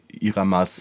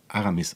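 First: The vowels are i, a, a. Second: The vowels are a, a, i. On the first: The name is said incorrectly. The speaker calls it wrong. "er wird immer anders genannt" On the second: The name is said correctly. The speaker calls it right. "ich heiße ja Aramis eigentlich"

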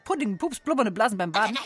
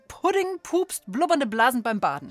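First: It is said very fast, stumbling slightly. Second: It is said at an ordinary, normal speed.

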